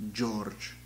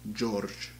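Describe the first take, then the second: The two takes are said the same way.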